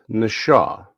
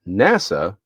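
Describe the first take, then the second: First: The middle consonant is an sh sound. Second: The middle consonant is a plain s sound. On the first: The speaker calls it right. "it's Nasha" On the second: The speaker calls it wrong. "isn't NASA"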